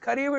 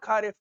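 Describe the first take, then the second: First: The word is said with Hindi pronunciation. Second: The word is said with anglicized pronunciation. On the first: The speaker calls it right. "It's kharif, These are the Hindi terms pronunciation" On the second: The speaker calls it wrong. "it's not kharif"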